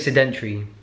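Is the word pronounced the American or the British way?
British. The word is said with a British pronunciation. "In the UK, we say sedentary"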